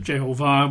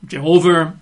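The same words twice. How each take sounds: First: "Jehovah" stressed on the final syllable, je-ho-VAH; last-syllable stress. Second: Said in the usual way. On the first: Shown as a demonstration. Preacher showing the original pronunciation, "Jehovah" with final-syllable stress. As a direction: put the emphasis at the end of "Jehovah". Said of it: "with the emphasis on the last syllable". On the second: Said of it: "reasonably convinced Jehovah is right".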